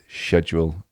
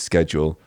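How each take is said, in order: First: It is pronounced the British way. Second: It is pronounced the American way. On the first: "it is schedule in uh, in England or the U K" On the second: "it's the American way of saying it is schedule"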